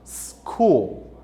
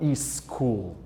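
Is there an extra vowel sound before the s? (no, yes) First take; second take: no; yes. First: The word starts directly with the s sound. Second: An extra vowel sound comes before the s. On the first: The speaker calls it right. "Escola em inglês seria school" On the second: The speaker calls it wrong. "e não school"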